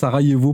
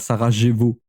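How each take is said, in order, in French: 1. Le j se prononce comme un y anglais. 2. Le j se prononce comme un j français. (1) "Le J, c'est le Y Narvalo. Ça se prononce Sarajevo" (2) "pas Sarajevo"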